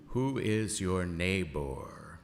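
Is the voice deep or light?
deep. It is said in a much deeper voice. The speaker calls it right.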